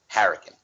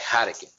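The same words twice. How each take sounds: First: It is said with an English pronunciation. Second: It is said quickly with a Japanese pronunciation. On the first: "if you spell it here like English" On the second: "they say it quick, like like hurricane"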